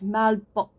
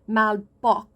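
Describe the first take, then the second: First: The final k sound is softened, barely heard. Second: The final k sound is fully pronounced. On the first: The speaker calls it right. "you kind of drop the sound a little bit" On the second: The speaker calls it wrong. "So it's not malbok"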